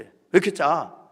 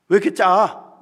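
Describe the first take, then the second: First: Repeated angry complaint. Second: Louder, higher snapping complaint; nitpicking shout. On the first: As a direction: scold it once more, still loud. (트집 잡으며 다시 크게 꾸짖는 말투) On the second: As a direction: bark it like a fussy chairwoman finding fault. (트집 잡는 회장님의 높고 큰 호통) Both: Retold or imitated. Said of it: "트집을 잡는 거예요".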